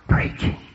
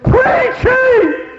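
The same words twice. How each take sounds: First: The word is whispered softly. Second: The word is yelled loudly.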